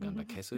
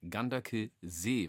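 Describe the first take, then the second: First: The name ends in a short e sound. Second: The name ends in a long ee sound. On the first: The speaker calls it wrong. "oder Ganderkesse" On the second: The speaker calls it right. "Nein, Ganderkesee, weil hinten ist ein S mit einem doppelten E"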